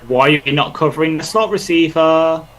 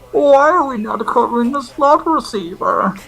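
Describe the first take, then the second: First: It is said in his normal voice. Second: It is said in a Bane impression voice.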